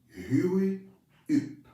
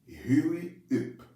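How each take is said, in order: First: It is said with a French accent. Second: It is said with a French accent.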